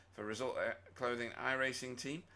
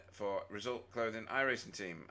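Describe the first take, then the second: No difference in how they are said.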